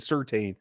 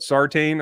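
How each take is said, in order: First: The first syllable sounds like 'sur'. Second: The first syllable sounds like 'sar'. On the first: This is how the speaker always said the name. The speaker calls it wrong. "I always said Surtain" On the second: This is the pronunciation the speaker was just told. The speaker calls it right. "but Sartain"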